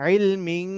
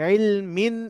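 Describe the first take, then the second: First: The final n is nasalized like ng. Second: The final n is a clear n sound. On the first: The speaker calls it wrong. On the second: The speaker calls it right.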